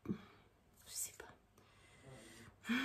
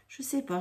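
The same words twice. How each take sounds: First: Slow, breathy whisper trailing away; whispered to herself. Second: Said in the usual way. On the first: Real, not acted. Unsure about the thick ink, slow whisper to herself. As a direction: let it fade into a whisper of doubt.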